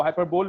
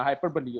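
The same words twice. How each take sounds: First: हाइपरबोल ending on "bole", no final vowel; mistaken pronunciation. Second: हाइपरबोली with a final "ee" sounded; correct pronunciation. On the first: Teacher showing students how not to read it, mispronounced हाइपरबोल ending in "bole". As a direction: say हाइपरबोल like "hyper-bowl". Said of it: "इसको हाइपरबोल नहीं पढ़ना". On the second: Teacher correcting how students read the term, हाइपरबोली pronounced with final "lee". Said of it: "हाइपरबोली होता है ये". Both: Shown as a demonstration.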